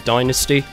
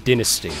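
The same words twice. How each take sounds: First: It is said with an American pronunciation. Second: It is said with a non-American pronunciation. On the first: "that was the American pronunciation of the word" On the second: "I changed to Dynasty"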